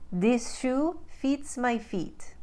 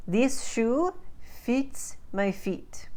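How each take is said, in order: First: Slow, higher Ukrainian-accented demo. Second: Slow, higher Russian-accented demo. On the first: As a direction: Ukrainian accent, "fits" said with a tight EE like "feet". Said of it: "But in the Ukraine, they take I". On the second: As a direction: say it slowly in Russian accent, fit sounding like feet. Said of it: "exactly the same in a Russian accent". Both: Shown as a demonstration.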